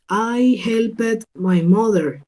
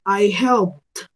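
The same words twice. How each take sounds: First: Slow sentence with HELPED as "hel-pet"; wrong ED ending. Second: HELPED slowly as one syllable, "helpt"; T ending. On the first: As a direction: say "helped" slowly in two syllables, full E. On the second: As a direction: end "helped" on a released T, no E. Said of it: "la voy a cambiar por una T". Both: Shown as a demonstration.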